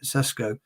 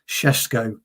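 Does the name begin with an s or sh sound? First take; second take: s; sh. First: The name begins with a plain s sound. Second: The name begins with an sh sound.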